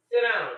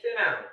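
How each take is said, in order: First: "Sit down." barked again much louder; escalating yell "Sit down."; louder repeat. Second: Firm raised bark, clipped; first stern "Sit down."; stern command. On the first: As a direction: shout the order down at them. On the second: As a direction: order them to sit. Grandma scolding grandkids. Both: Retold or imitated.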